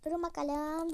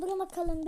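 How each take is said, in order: First: Said in the usual way. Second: Durun called out louder and higher; louder second call for everyone to wait; louder repeat. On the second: Real, not acted. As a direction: call "Durun" out again, more insistent.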